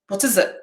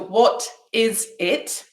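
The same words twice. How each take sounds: First: The words run together as one unit. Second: Each word is said slowly and apart. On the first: "not three different words" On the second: "If I said it slowly"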